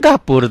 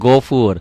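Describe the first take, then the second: First: The first vowel sounds like an open 'a'. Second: The first vowel sounds like a rounded 'o'. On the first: It follows the Latin spelling. The speaker calls it wrong. "tulisannya gafur tuh ya" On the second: It follows the proper Quranic reading. The speaker calls it right. "Padahal gofur. Pakai O aja deh ya"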